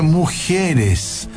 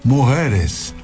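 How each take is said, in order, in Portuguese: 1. Tem sotaque chileno, com um glide de i acrescentado. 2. Tem sotaque cubano, quase não dá para reconhecer. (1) "é só tu botar um I onde não tem antes do E" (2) "prestem atenção no cubano"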